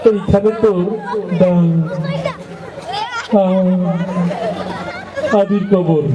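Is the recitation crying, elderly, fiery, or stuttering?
stuttering. It is recited haltingly with stuttering. A boy who stutters is reciting. "একটু তোতলা টাইপের, কথা বাইরে দিতে সময় লাগে"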